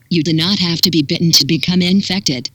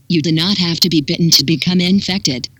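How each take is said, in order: Both takes have the same delivery.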